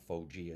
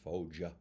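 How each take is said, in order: First: The name has an American-style pronunciation. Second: The name has a native Italian pronunciation. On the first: The speaker calls it wrong. "Which he says I'm saying incorrectly. It's not Foggia" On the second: The speaker calls it right. "it's Foggia"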